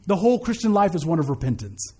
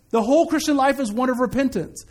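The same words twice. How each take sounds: First: Said in the usual way. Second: Higher, insistent restatement through to "repentance"; emphatic repeat. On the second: Real, not acted. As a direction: raise the pitch and preach "repentance" with conviction. Repeats the statement with force.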